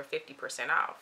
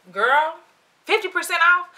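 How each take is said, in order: First: Said in the usual way. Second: Loud, high disbelieving question; incredulous. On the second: Retold or imitated. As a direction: repeat it as if you can't believe the deal. Stunned reaction to the discount.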